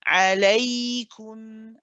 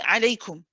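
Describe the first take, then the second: First: The y sound is held longer. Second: The y sound is cut short. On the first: The speaker calls it right. "you let the ya run a little bit uh, longer" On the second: The speaker calls it wrong. "we don't say alaykum"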